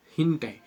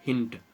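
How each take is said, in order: First: हिंट said with a short i as in "hint". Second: हिंट repeated softly with a short i; repeat hint. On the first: Teacher modelling the example word for the class, clearly. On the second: Teacher repeating the example word to the students, softly. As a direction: echo हिंट quietly, short i. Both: Shown as a demonstration. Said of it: "example के तौर पे देखो".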